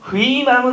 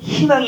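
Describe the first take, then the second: First: The first syllable is said with 'ui'. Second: The first syllable is said with plain 'i'. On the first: The speaker calls it wrong. "희망은 없고" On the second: The speaker calls it right. "희망이 있는 거죠"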